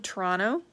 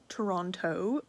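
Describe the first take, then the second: First: The word is said in a relaxed, reduced way. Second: Every syllable of the word is fully pronounced. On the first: The speaker calls it right. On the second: The speaker calls it wrong.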